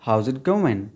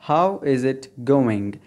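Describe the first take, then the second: First: It is said fast, words run together. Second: It is said slowly, each word full.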